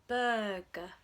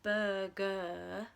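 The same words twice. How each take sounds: First: The final vowel is a short, weak uh. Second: The final vowel is a long, full ur. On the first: The speaker calls it right. "So it's burger" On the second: The speaker calls it wrong. "It's not burger"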